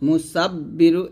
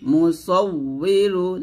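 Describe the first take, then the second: First: The middle consonant is a doubled b sound. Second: The middle consonant is a w sound. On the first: The speaker calls it wrong. "এটা কিন্তু ভুল" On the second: The speaker calls it right. "এখানে উই বলতে হবে"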